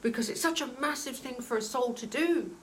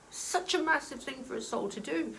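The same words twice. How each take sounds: First: Getting emotional. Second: Welling up. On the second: Medium repeating the point to viewers, choked up. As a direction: say it again as the feeling catches you. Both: Real, not acted. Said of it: "I'm getting emotional again".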